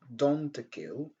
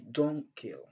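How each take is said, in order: First: The T at the end of don't is pronounced. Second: The T at the end of don't is dropped. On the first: The speaker calls it wrong. "Au lieu de dire" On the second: The speaker calls it right. "on dit"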